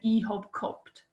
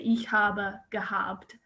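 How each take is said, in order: First: It is said in a strong regional dialect. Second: It is said in standard German.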